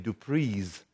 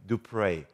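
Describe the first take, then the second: First: The name ends with a z sound. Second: The name ends without a z sound. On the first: This is how most Americans say the name. The speaker calls it wrong. "most Americans say Dupree's, it sounds like freeze" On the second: This is the French way of saying the name. The speaker calls it right. "we changed the pronunciation to the French way"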